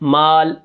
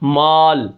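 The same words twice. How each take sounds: First: The long a vowel is light and thin. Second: The long a vowel is heavy and dark. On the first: The speaker calls it right. "अलिफ बारीक है" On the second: The speaker calls it wrong. "माल के अलिफ को भी हम क्या करते हैं, मोटा पढ़ते हैं"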